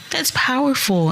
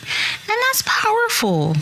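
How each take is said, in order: First: Said in the usual way. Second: Breathy whispered emphasis. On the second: Acted. Podcaster telling parents their healing matters, whispered.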